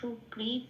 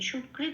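First: The word ends with a full ta syllable. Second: The word ends on a bare t sound. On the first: The speaker calls it right. "এই তটা পূর্ণরূপে বলতে হবে" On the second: The speaker calls it wrong. "সুকৃত বলতে পারবো না"

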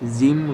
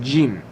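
First: The j sound is soft and light. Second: The j sound is strong and forceful. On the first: The speaker calls it wrong. "অনেকে এই অক্ষরটাকে জিম উচ্চারণ করে থাকেন। তো জিম হবে না" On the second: The speaker calls it right. "এই অক্ষরটা অনেক শক্তিশালী"

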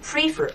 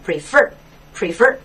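First: The stress is on the first syllable. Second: The stress is on the second syllable. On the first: The speaker calls it wrong. "不要读成prefer，错了" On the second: The speaker calls it right. "它的重音在后面，读成prefer"

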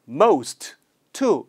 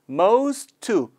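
First: The two words are said separately, with a break. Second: The two words run together quickly, T dropped. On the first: The speaker calls it wrong. "이렇게 끊지 않고" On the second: The speaker calls it right. "묶어서 빨리 하시면"

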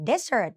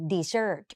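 First: The stress is on the first syllable. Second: The stress is on the second syllable. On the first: It is a noun meaning a dry sandy region. "เน้นตัวหน้า" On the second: It is a verb meaning to abandon. "ถ้ามันเขียนเหมือนกันแต่ออกเสียงเป็น"

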